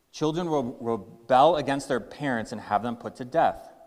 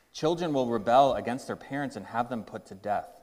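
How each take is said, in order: The two takes are said the same way.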